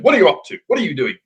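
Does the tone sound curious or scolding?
scolding. It sounds like a stern telling off.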